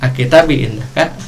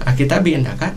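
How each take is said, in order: First: It is spoken with an Arabic accent. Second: It is spoken with a Sundanese accent. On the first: The speaker calls it right. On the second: The speaker calls it wrong.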